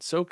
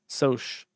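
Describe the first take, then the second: First: The word ends with a k sound. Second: The word ends with a ch sound. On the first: The speaker calls it right. "Soak is better" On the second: The speaker calls it wrong. "That's stupid"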